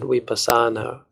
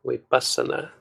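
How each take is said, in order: First: Vipassana with stress on PAS, vi-PAS-sa-na; wrong Western stress. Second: Vipassana with stress on VI, VI-pas-sa-na, short a's; correct Pali stress. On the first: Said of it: "when many Westerners pronounce it". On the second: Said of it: "which is incorrect because the A is short". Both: Shown as a demonstration.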